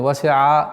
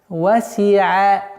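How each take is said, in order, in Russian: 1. Звук ayn произносится твёрдо. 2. Звук ayn произносится мягко. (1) "нельзя говорить а васиа или васиа" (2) "звук айн всегда произносится мягче"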